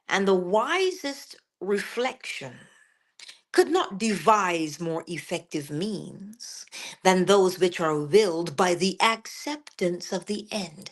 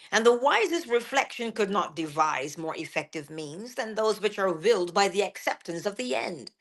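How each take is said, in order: First: It is said slowly. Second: It is said at normal speed.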